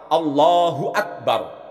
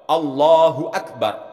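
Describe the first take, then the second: The two takes are said the same way.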